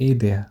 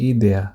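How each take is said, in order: The two takes are said the same way.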